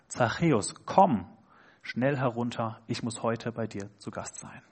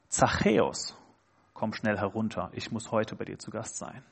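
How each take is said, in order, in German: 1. Die Betonung liegt auf dem Wort komm. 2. Die Betonung liegt auf dem Namen Zachäus. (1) "Er sagt, komm" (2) "Jesus spricht Zachäus bei seinem Namen an"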